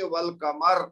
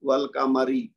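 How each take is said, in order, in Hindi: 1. र भारी है और शब्द के अंत में है। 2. र हल्का है और उसके बाद स्वर आता है। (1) "फिर रा मोटा हो जाएगा" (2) "रा पढ़ा जाएगा बरीक"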